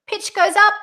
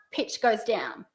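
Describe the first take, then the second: First: High, loud, rising on "up"; pitch going up. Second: Low, soft fall on "down"; pitch going down. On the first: Coach demonstrates the first option's tune, pitch up. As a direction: send "up" high like a question. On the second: Coach demonstrates the second option's tune, pitch down. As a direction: sink to the bottom on "down". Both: Shown as a demonstration.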